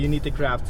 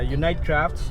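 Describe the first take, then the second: First: The first word ends with an 'ee' sound. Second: The first word ends with an 'ite' sound. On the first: The speaker calls it wrong. "I've been uh, pronouncing it wrong for the longest time. So hindi pala" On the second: The speaker calls it right. "it's uh"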